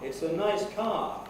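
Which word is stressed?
car. The main stress falls on the word car. The car is treated as new information despite being mentioned. The speaker calls it wrong. "You would get a completely ridiculous effect"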